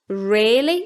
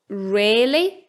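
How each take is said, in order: First: The first vowel is a lengthened short i. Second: The first vowel is a lengthened short i.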